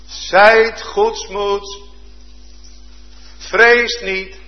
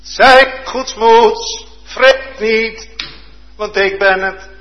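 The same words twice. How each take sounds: First: Slow, solemn comfort, a little higher; calm reassurance. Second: Louder, higher, very slow; fervent proclamation. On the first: Jesus calming his terrified disciples on the water, slow and solemn. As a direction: lay each word down gently and firmly. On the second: Preacher repeating Jesus' words to the disciples, loud and fervent. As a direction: proclaim it with rising fervour. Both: Acted.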